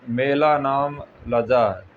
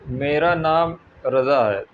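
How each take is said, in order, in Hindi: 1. नाम तोतलाकर बोला गया है, ल और ज की आवाज़ों के साथ। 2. नाम ज़ की आवाज़ के साथ साफ़ बोला गया है।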